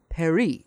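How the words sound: The word is said with a French pronunciation.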